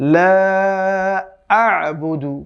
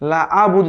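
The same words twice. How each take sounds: First: The throat sound ain is clearly pronounced. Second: The throat sound ain is weak or missing. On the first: The speaker calls it right. "আমরা বলতে হবে" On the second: The speaker calls it wrong. "যাতে না বলি আমরা"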